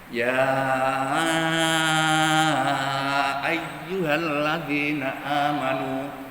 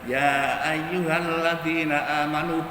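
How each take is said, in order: First: The vowel of 'ya' is held long. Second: The vowel of 'ya' is held short. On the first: "ada yang baca panjang" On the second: "boleh tidak apa-apa"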